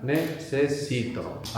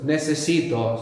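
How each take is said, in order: First: "necesito" drawn out as ne-ce-si-to; slow, syllable by syllable. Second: Said in the usual way. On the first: Shown as a demonstration. Teacher advising the tongue-tied learner, slow syllables. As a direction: take "necesito" slowly, one syllable at a time. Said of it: "Syllable by syllable". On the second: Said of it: "So a lot of syllables there".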